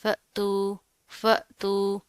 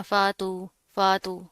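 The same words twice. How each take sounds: First: फ़तू as fa'-tu, with a glottal catch; short fa, tiny jolt, then tu in फ़तू; light jerk. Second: फ़ातू with a smooth stretched aa; wrong demo, glide through फ़ातू without the catch; no jerk, long aa. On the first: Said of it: "थोड़ा सा झटका देकर पढ़ेंगे light सा". (फ़तू, हमज़ा पर हल्का झटका) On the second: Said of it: "इसको आपने इस तरह नहीं पढ़ना". (फ़ातू, झटके के बिना लंबा आ) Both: Shown as a demonstration.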